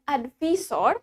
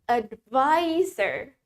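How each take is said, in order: First: "advisor" read as spelt, ad-VEE-sor; "advisor" with a vee sound instead of vai; mispronunciation demo. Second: "advisor" as ad-VAI-zer, drawn out slowly; very slow "advisor", middle syllable rhyming with "eye"; correct pronunciation demo. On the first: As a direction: say "advisor" the wrong way, with an Indonesian "vi" and "sor". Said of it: "Bukan advisor". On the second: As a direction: stretch the "vai" in "advisor" to show the English sound. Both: Shown as a demonstration.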